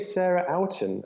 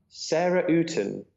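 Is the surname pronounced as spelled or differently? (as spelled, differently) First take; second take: as spelled; differently. First: The surname is pronounced as it is spelled. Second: The surname is not pronounced as spelled. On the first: The speaker calls it wrong. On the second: The speaker calls it right.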